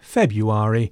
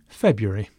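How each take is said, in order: First: The word is said with all its syllables in full. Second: The word is said with a reduced middle part. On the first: "February being reduced to" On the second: "reduced to February"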